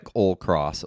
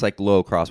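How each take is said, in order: First: It is said without an o vowel in the middle. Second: It is said with an o vowel in the middle. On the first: The speaker calls it wrong. "it comes out as cyclocross many times" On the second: The speaker calls it right. "it's cyclocross with an O in the middle"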